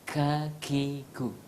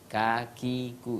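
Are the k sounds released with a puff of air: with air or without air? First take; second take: with air; without air. First: The k sounds have a puff of air. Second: The k sounds have no puff of air. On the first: This is how a native Arabic speaker would say it. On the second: This is the ordinary local way of saying it. "kita orang Indonesia mengatakan kakiku, kakiku, itu tanpa ada napas yang keluar"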